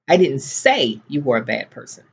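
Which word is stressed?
say. The stress falls on the word say. It was thought but not said. "but I was thinking it"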